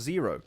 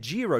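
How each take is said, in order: First: The name begins with a Z sound. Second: The name begins with a J sound. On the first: The speaker calls it wrong. "not Zero" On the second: The speaker calls it right. "it's said Jiro"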